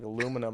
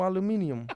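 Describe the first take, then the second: First: The word is said in the speaker's plain accent. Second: The word is said in a put-on Australian accent.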